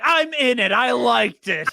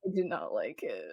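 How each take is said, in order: First: Loud, high mock protest; punchy retold objection, pitched up; Wayne Brady. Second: Low, quiet deadpan retort; low and soft, as a retold punchline; Drew Carey. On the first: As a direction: imitate an indignant, raised-voice defense. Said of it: "Wayne's like". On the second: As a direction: imitate a dropped-voice, muted dismissal. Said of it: "And Drew is like".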